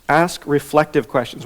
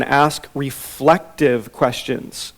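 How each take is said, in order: First: Said in the usual way. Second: Slow, weighty emphasis on "ask reflective questions"; slow emphatic. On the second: Shown as a demonstration. Teacher stating point one slowly. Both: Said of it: "So, number one".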